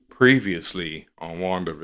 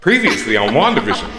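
First: It is said with flat, drained energy. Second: It is said with bright, high energy.

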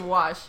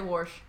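First: The word has no r sound before the sh. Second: The word has an r sound before the sh. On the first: "I say wash" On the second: "I don't say warsh"

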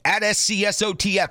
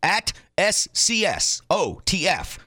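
First: It is said at a normal pace. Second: It is said slowly, letter by letter.

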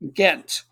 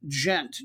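First: The word starts with a hard G sound. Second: The word starts with a soft G sound. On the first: This names the town. "you would say that as Ghent with a harder G" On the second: This names the club. "you pronounce the club name with a soft G"

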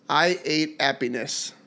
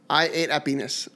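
First: The phrase is said at a slower pace. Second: The phrase is said at a faster pace.

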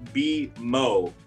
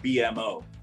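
First: The O blends with M into one syllable. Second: The O is spoken as a separate letter. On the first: The speaker calls it right. "The O is not the start of a word, so it's BMO" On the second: The speaker calls it wrong. "It's not BMO"

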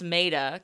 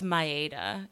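First: The name is said with English-style sounds. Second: The name is said with Japanese-style sounds. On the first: This is the simplified version given to English speakers. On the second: This is the name's actual original form. "But it's Maida. It's technically Maida"

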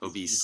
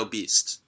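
First: The word ends without a t sound. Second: The word ends with an added t sound. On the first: The speaker calls it right. "I said it wrong" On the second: The speaker calls it wrong. "You put a T at the end of it"

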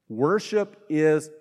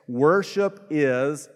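No difference in how they are said.

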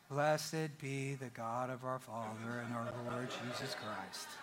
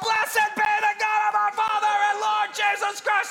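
First: It is read in a flat, unexcited way. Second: It is read with excitement.

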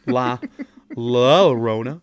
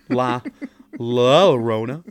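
First: The name is said with English sounds. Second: The name is said with English sounds.

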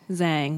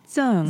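First: The name is pronounced with English sounds. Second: The name is pronounced with Mandarin sounds. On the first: "the like English way of saying it is Zhang" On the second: "that's the Mandarin way of saying it"

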